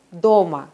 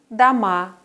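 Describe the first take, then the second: First: "Doma" with a long clear O in the first syllable, weak final a; stress on first syllable. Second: "Dama" with a weak first a and a long stressed final A; stress on last syllable. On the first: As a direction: stress the DO of "Doma", let the end reduce. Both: Shown as a demonstration. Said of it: "sich nur durch die Aussprache unterscheiden".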